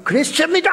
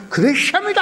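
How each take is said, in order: First: "그랬습니다" pitched high, ending on a rise; a light mimic of a slick interpreter's ringing delivery; imitating the interpreter. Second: "그랬습니다" pitched higher, with a ringing rise at the end; a hammed-up, showy interpreter voice; imitating the interpreter, stronger. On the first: Interpreter rendering Billy Graham's sermon, a light mock imitation. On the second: Interpreter rendering Billy Graham's sermon, a hammed-up mimic. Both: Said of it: "얼마나 쇠소리로 또 번역을 잘합니까".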